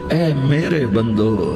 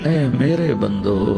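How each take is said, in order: The two takes are said the same way.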